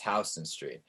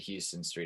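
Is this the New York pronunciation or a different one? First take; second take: New York; different. First: It is said the New York way. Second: It is said unlike the New York way. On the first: The person saying it is a real New Yorker. The speaker calls it right. "It's Houston Street" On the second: The person saying it is not a real New Yorker. The speaker calls it wrong. "You cannot be a New Yorker if you say Houston Street"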